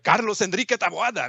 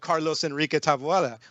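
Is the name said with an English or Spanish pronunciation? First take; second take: Spanish; English. First: The name is said with a Spanish pronunciation. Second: The name is said with an English pronunciation. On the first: It is said for a Spanish-speaking crowd. "if I'm hanging out with like Spanish speakers" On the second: It is said for an English-speaking crowd. "with you guys, I'm gonna say"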